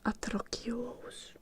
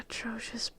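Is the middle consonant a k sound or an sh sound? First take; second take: k; sh. First: The middle consonant is a k sound. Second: The middle consonant is an sh sound. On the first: The speaker calls it wrong. "I'm not saying atrokios" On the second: The speaker calls it right. "You can tell I know it because I can pronounce it"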